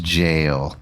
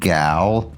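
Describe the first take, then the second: First: The word begins with a J sound. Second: The word begins with a hard G sound. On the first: The speaker calls it right. "it's actually pronounced jail" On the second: The speaker calls it wrong. "I always thought that G A O L spelled gal"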